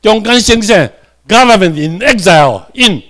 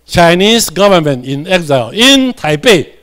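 First: Said in the usual way. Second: Each word read slowly and clearly for the class; teacher reading the phrase slowly to students; slow read-aloud. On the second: Shown as a demonstration. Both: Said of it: "这里做伙来读者".

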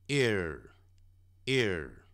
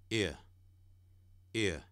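First: "ear" with a strong r-coloured ending; curled-tongue r. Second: "ear" as "ee-uh", no "r" sound; no curled tongue. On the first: Teacher contrasts for learners, "ear" with curled tongue. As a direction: curl the tongue into the end of "ear". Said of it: "有卷舌的是". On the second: Teacher contrasts for learners, "ear" without curled tongue. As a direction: drop the "r" from the end of "ear". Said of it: "没卷舌的就是倒数第二个". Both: Shown as a demonstration.

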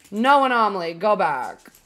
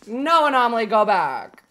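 Both takes have the same delivery.

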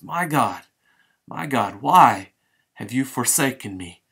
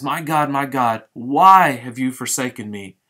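First: Halting, then burst out on why; Jesus crying out to God in anguish. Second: Forsaken cry, louder towards the end; Jesus proclaiming the psalm aloud. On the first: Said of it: "Jesus cries out in Hebrew". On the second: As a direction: call it out, swelling loud. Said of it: "So he pronounces". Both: Acted.

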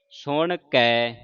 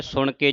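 First: Slow ਸੁਣ ਕੇ ending in "kai"; two-lava ending. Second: ਸੁਣ ਕੇ with a close "ke"; wrong single-lav ending. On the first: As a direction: draw out ਸੁਣ ਕੇ with open "ai". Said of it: "ਇੱਕ ਤੇ ਦਲਾਵਾਂ ਲੱਗੀਆਂ". (ਸੁਣ ਕੇ ਨੂੰ ਹੌਲੀ, ਦੁਲਾਵਾਂ ਨਾਲ "ਕੈ") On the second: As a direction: say ਸੁਣ ਕੇ briskly with plain "e". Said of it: "ਇਸ ਤਰ੍ਹਾਂ ਨਹੀਂ ਪੜ੍ਹਨਾ". (ਸੁਣ ਕੇ ਦਾ ਅੰਤ ਇੱਕ ਲਾਂ ਨਾਲ "ਕੇ") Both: Shown as a demonstration.

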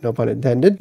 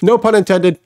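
First: No pun intended dropped low and soft with a small rise; muttered aside. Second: Said in the usual way. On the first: Real, not acted. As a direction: mutter No pun intended under your breath. Joke aside, muttered take.

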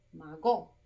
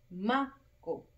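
First: "mago" said as ma-GÓ, end punched; stress on GO. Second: "mago" split, strong MA, falling go; stress on MA. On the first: Teacher testing wrong option on pupils, "mago" stressed on GO. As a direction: hit the last syllable of "mago". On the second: Teacher showing the tonic syllable, "mago" with MA stressed. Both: Shown as a demonstration. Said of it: "la sílaba tónica".

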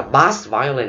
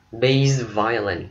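First: "bass violin" with "bass" rhyming with "pass"; wrong pronunciation. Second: "Bass violin" with "Bass" like "base", slowly; slow model of "Bass violin" as BAYSS violin; correct musical pronunciation. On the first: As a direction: say "bass violin" with the short A of the fish. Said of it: "mình không nói là". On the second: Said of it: "mình đọc nó là bass". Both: Shown as a demonstration.

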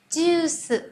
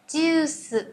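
Both takes have the same delivery.

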